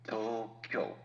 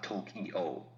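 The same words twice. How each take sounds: First: Tokyo in two syllables, to then kyo; Japanese Tokyo. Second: Tokyo slowly in three syllables, to-ki-o; English Tokyo. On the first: Host breaking down sounds, two-beat Tokyo. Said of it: "two syllables". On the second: Host breaking down sounds, three-beat Tokyo. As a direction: pull Tokyo into three beats. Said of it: "That'd be three". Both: Shown as a demonstration.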